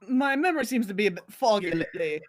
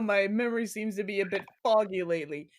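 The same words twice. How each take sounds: First: It is said in a put-on accent. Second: It is said in his natural voice.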